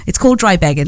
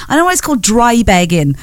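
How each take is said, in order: First: "called" leaned on, slightly lower; stress on called. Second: Said in the usual way. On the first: Shown as a demonstration. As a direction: press the word "called" to insist.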